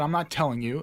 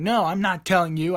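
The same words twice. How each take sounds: First: Said in the usual way. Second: Higher, mildly raised defiant refusal; defensive. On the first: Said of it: "And I didn't tell him. I said". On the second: Retold or imitated. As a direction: dig in like a kid talking back. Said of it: "I start getting defensive".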